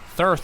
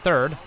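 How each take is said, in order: First: The word ends with a 'th' sound. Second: The word ends with a 'd' sound. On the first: The speaker calls it right. "that's how they like to pronounce it" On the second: The speaker calls it wrong. "It's not third"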